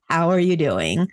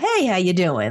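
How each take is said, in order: First: It sounds like a sincere, heartfelt question. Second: It sounds like a casual, offhand greeting.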